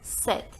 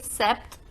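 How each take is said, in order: First: The P sound is silent in the word. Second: The P sound is pronounced in the word. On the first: The speaker calls it right. "The pronunciation is set" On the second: The speaker calls it wrong. "We never say sept"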